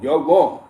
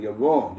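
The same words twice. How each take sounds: First: WRONG said louder, pushed harder; insistent You're wrong; emphatic repeat. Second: Said in the usual way. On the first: Real, not acted. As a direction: lean hard on wrong the second time.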